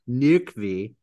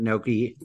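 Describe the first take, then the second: First: The name is said with a 'v' sound, like 'Nukvi'. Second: The name is said without a 'v' sound, like 'Noki'. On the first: The speaker calls it right. "is that correct?" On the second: The speaker calls it wrong. "I'm going to butcher his name"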